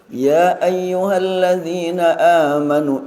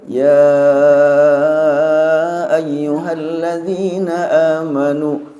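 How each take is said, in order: First: The opening vowel of 'ya' is short. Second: The opening vowel of 'ya' is drawn out long. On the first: The one calling is very near. "panggilan ya dibaca pendek" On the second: The ones being called are often far away. "Ketika dibaca panjang"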